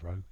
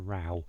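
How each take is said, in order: First: The vowel sounds like the one in go. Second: The vowel sounds like the one in cow. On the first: A line or rowing a boat. The speaker calls it wrong. "not row" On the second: An argument. The speaker calls it right. "An argument is a row, It's a row"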